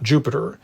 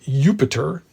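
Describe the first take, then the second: First: The name starts with a J sound. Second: The name starts with a Y sound. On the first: The speaker calls it wrong. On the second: The speaker calls it right. "Nor, for that matter, is there a J sound. So it was"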